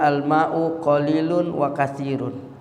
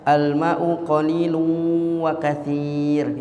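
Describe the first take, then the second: First: It is read plainly, without recitation rules. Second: It is read with elaborate recitation rules. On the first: The speaker calls it right. "kalau orang baca kitab nggak pakai tajwid nggak apa-apa" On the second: The speaker calls it wrong. "ya ribet banget baca kitab itu ya"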